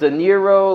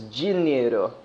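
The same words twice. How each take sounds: First: The word begins with a plain D sound. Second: The word begins with a J-like sound. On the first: "like like cash in Spanish" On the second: "In Portuguese, a lot of the D is pronounced as a J"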